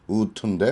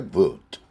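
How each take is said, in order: First: It begins with a plain w sound. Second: It begins with a lip-teeth sound and ends in t. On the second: "foot는 치순 B에 would의 D를 T로 발음한 거죠"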